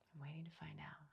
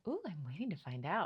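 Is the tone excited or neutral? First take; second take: neutral; excited. First: It is said in a neutral tone. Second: It is said in an excited tone.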